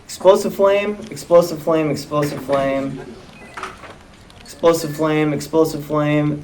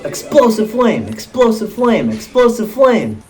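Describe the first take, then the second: First: Monotone, trailing down softer with each repeat; deadpan script reading. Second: High mimicked attack call, each one falling; Palutena. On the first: Acted. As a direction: drone the repeated move off the page. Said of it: "Let's see, it says". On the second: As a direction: chant the game move like a character's catchphrase. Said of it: "Palutena is gonna go".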